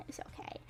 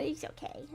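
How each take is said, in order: First: Breathy whispered It's okay. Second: Said in the usual way. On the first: Real, not acted. Reassuring a sympathetic viewer, whispered. Comforting chat after hurricane story.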